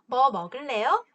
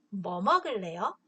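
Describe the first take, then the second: First: It has the tune of a yes-no question. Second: It has the tune of a what-question. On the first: The speaker asks whether the listener will eat anything. "아니요, 안 먹을래요" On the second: The speaker asks which food the listener will eat. "불고기를 먹을래요"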